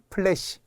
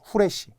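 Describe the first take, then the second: First: The word begins with a p sound. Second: The word begins with an h sound. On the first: The speaker calls it right. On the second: The speaker calls it wrong.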